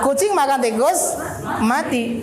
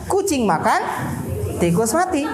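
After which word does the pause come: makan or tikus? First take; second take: tikus; makan. First: The pause comes after the third word. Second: The pause comes after the second word. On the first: "pindahkan lagi tanda komanya ini setelah kata yang ketiga" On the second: "tanda koma nih kita pindahkan pada kata yang kedua"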